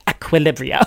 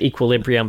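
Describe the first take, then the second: First: The word is said in an odd, imitated way. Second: The word is said the usual way. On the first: This copies one character's peculiar way of saying it. "but then his son is like" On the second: This is how most people say it. "everyone else in the movie pronounces it equilibrium"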